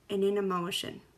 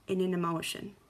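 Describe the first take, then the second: No difference in how they are said.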